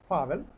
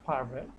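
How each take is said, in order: First: The r is dropped, vowel runs into v. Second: A clear r sound is heard before the v. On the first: The speaker calls it right. "আরটা আমরা একটু সফট করবো" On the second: The speaker calls it wrong. "Not ফারভেল"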